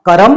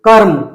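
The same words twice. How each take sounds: First: करम with a full vowel after र; करम, vowel after r kept. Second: कर्म with no vowel after र; half r. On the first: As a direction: say करम as ka-ram. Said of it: "ये था". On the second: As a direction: say कर्म as karm. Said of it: "ये". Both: Shown as a demonstration.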